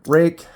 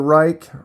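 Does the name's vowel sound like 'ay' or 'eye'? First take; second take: ay; eye. First: The vowel sounds like 'ay'. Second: The vowel sounds like 'eye'. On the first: The speaker calls it right. "I think it's pronounced Rake" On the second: The speaker calls it wrong. "I keep saying that wrong"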